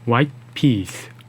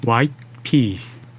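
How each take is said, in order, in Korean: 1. 소리 없는 t가 peas 앞에서 숨을 멈춥니다. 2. 소리 없는 t가 peas 앞에서 숨을 멈춥니다.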